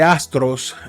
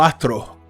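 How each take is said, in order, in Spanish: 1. La s antes de la t se pronuncia claramente. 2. La s antes de la t suena como una h aspirada. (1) "en vez de astros" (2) "sustituyo la S por la J"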